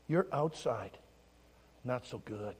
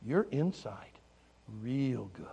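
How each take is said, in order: First: Low, soft, paused phrases; gentle admission. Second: Hushed, dropping to a whisper; tender affirmation. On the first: Pastor telling children about outsides, gently. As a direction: break it to them quietly. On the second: Pastor telling children about insides, tender whisper. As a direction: confide it softly, ending in a whisper. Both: Retold or imitated.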